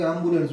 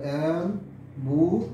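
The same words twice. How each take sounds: First: Said in the usual way. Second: ambulance drawn out slowly in three separate syllables. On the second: Shown as a demonstration. Teacher counting syllables for students, ambulance slowly broken into three beats. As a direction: split ambulance slowly into am, bu, lens. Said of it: "তাহলে তিনটে syllable".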